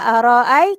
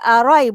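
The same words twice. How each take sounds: First: The second hamzah is pronounced. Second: The second hamzah is dropped.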